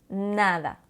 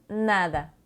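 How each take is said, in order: The two takes are said the same way.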